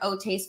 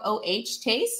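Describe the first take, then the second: First: The first part is said as one word. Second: The first part is spelled out as letters. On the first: The speaker calls it right. "Okay, got it" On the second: The speaker calls it wrong. "I think I might be saying this wrong"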